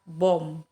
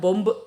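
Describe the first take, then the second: First: The word ends on the m sound, no b. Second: The word ends with an audible b sound. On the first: The speaker calls it right. "ini hanya dibaca sampai M saja" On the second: The speaker calls it wrong. "bukan bomb ya"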